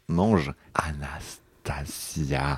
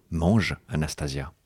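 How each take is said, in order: First: Very slow whisper, lingering on each syllable; sensual whisper. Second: Said in the usual way. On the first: Acted. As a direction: breathe every syllable of the name slowly. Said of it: "il faut que je le refasse". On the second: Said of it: "Sa bouche s'attarde sensuellement sur chaque syllabe".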